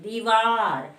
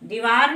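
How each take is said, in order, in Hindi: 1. पहला स्वर लंबा है। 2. पहला स्वर छोटा है। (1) "दो में बड़ी की मात्रा" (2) "दीवार नहीं बोलते"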